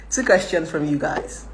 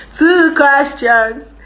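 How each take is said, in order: First: Said in the usual way. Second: Very slow, high, loud call; drawn-out announcement. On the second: Real, not acted. Streamer calling viewers for questions, drawn-out high call. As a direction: stretch each word out high and loud.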